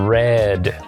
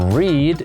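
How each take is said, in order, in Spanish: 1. Tiene una vocal 'e' corta, como en red. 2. Tiene una vocal 'ee' larga, como en reed. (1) "en pasado se pronuncia" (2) "En presente se dice"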